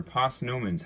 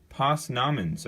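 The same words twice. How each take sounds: First: Posnomens, second syllable sounding like "no"; alternative pronunciation. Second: Posnamens, second syllable sounding like "nom"; first pronunciation variant. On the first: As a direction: say Posnomens with a long "oh" in the middle syllable. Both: Shown as a demonstration. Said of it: "however you wanna pronounce them".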